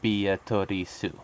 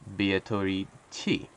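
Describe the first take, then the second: First: The name ends with a su sound. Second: The name ends with a chi sound. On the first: "this is how you would pronounce that in English in Japanese" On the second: "they keep pronouncing it as this"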